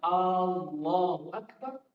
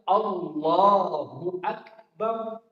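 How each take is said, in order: First: The opening vowel of Allahu is drawn out. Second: No vowel is drawn out in the phrase. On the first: It asks whether God is great. The speaker calls it wrong. "Pada kata hamzah A itu kita panjangkan" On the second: It declares that God is greatest. The speaker calls it right. "Maka harus kita baca"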